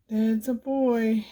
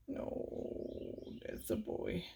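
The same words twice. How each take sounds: First: Said in the usual way. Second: Soft whisper to the cat. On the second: Real, not acted. Whispering fond praise to the cat. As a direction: breathe the praise, no voice.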